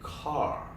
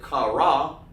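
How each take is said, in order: First: It is said as one blended syllable. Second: It is said as two separate syllables. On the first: The speaker calls it right. "you say car" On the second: The speaker calls it wrong. "you don't say kara"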